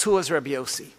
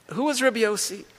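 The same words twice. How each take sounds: First: Said in the usual way. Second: The repeated question pitched much higher; higher emphatic rhetorical question. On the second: Shown as a demonstration. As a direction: ask it again, higher and insistent, pressing the point.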